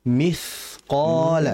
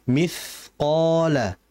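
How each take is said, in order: The two takes are said the same way.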